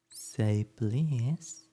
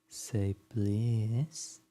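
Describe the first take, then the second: The two takes are said the same way.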